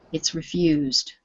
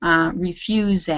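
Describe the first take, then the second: First: Refused with a plain d ending, one syllable after re; correct one-syllable refused. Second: Refused stretched into two syllables, re-fuse-d; wrong two-syllable refused. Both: Shown as a demonstration. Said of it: "don't make it two syllables".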